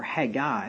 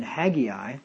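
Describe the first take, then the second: First: "Haggai" said as HAG-eye; two-syllable Haggai. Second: "Haggai" said as HAG-ee-eye; three-syllable Haggai. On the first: Pastor corrects the prophet's name, "Haggai" as HAG-eye. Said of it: "I think it's actually Haggai". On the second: Pastor tries the prophet's name, "Haggai" as HAG-ee-eye. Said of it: "the pronunciation on that". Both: Shown as a demonstration.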